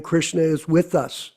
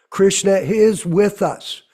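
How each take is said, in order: First: Said in the usual way. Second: Slow, firm stress on "is" in "Krishna is with us"; emphatic IS. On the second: Real, not acted. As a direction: lean hard on "is", slowing the whole line. Repeats the line for emphasis.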